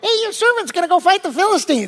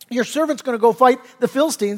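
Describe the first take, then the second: First: It is said in a young boy's voice. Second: It is said in a normal adult voice.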